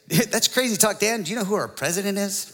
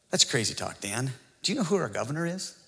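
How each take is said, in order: First: Higher, livelier mock objector; lightly hammed-up challenger, higher voice; opposing objector. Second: Lightly voiced objector, low and soft at first; mildly mock a doubter in an understated voice; quiet, dry imitation of a challenger; skeptical objector. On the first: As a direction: imitate the other side protesting, pitch up. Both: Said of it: "The other side would say".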